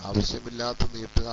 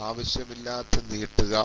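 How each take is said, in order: Both takes have the same delivery.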